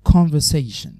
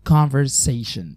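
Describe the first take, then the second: First: It is said with a British accent. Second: It is said with an American accent.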